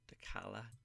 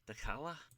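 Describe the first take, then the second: First: It is said in the speaker's usual accent. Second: It is said in an imitated Scouse accent.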